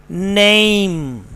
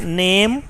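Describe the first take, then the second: First: "name" drawn out as "neh-eem"; British pronunciation. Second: "name" as "nehm"; one steady "eh" in name, no glide; Pakistani pronunciation. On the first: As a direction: glide the vowel of name towards "ee". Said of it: "The correct pronunciation is". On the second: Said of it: "In Pakistan English we". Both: Shown as a demonstration.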